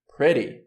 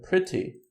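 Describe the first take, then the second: First: The middle T sounds like a quick soft D. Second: The middle T is pronounced as a crisp T.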